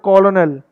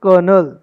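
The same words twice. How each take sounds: First: Colonel as spelled, CO-lo-nel, punched out; common mispronunciation. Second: Colonel as KER-nul, slow and loud; corrected pronunciation. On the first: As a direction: say colonel in three syllables. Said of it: "तो आप बोलते हो". (colonel को गलत, 'कॉ-लो-नल' बोलें) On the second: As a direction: say colonel just like 'kernel'. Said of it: "but it's colonel". (colonel को ज़ोर से 'कर-नल' बोलें) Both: Shown as a demonstration.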